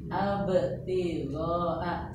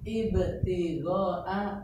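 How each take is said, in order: First: The word begins with an a vowel. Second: The word begins with an i vowel. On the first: The speaker calls it wrong. "fathah bu ya. Abtigoa salah" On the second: The speaker calls it right. "betul. Kok i betul ya?"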